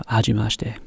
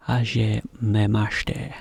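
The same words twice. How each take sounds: First: Said in the usual way. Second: "Hajimemashite" drawn out slowly, part by part; careful, slow model of "Hajimemashite"; slowed-down demonstration. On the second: Shown as a demonstration. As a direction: say "Hajimemashite" at half speed for learners. Teacher breaks down tricky Japanese phrase.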